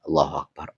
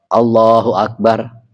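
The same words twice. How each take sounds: First: The phrase is said softly. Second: The phrase is said loudly. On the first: It is the ordinary quiet recitation of the followers. "Makmum pelan-pelan aja" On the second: It signals the change of phrase to those following. "kencang. Awalnya doang"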